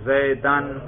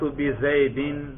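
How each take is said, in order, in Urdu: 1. یہ لفظ -an کی آواز سے ختم ہوتا ہے۔ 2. یہ لفظ -in کی آواز سے ختم ہوتا ہے۔ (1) "دیکھا رفع نصب جر" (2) "دیکھا رفع نصب جر"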